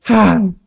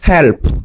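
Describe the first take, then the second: First: It is said with an American English accent. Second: It is said with a Korean accent. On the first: "미국 사람은" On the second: "한국 사람은"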